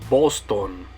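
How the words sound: It is said with Spanish vowel sounds. "In Spanish, you're going to say"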